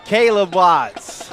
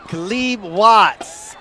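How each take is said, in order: First: Caleb drawn out as KAY-lub, first syllable stressed; name variant. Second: Caleb drawn out as kuh-LEEB, second syllable stressed; name variant. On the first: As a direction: slowly say Caleb with a long "ay". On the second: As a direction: slowly say Caleb with a long ee. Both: Shown as a demonstration. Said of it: "However you wanna say it".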